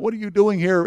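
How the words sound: It sounds annoyed, as if questioning someone's presence.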